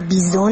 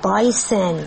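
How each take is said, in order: First: The first syllable is said like 'bee'. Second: The first syllable is said like 'buy'. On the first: The speaker calls it wrong. "ولی بیزون نیست" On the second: The speaker calls it right.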